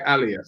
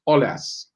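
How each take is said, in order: First: The name begins with an 'ah' vowel sound. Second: The name begins with an 'oh' vowel sound. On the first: The speaker calls it wrong. "because I say alias" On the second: The speaker calls it right. "so he's saying it's Olas"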